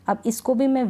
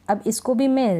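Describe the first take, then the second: No difference in how they are said.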